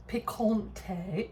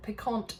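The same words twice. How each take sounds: First: "picante" drawn out, ending in a stressed -tay; accented final e. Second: "picante" said like piquant, pee-KONT; silent final e. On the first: Host puzzled by the label's accent mark, "picante" ending in -tay. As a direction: slowly sound out "picante" as pee-kon-TAY. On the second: Host ignores the label's accent mark, "picante" ending on t. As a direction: drop the last vowel of "picante", ending on t. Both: Real, not acted. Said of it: "don't know why there's an accent on there".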